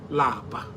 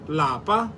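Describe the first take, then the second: First: The word is said with a low tone. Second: The word is said with a high tone. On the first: It means to be tired. "Lower tone, which lapa. Lapa means to be tired" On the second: It means home. "In higher tone, lapa means home"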